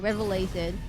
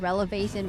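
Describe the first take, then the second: First: The v sound comes before the l sound. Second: The l sound comes before the v sound. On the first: The speaker calls it right. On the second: The speaker calls it wrong.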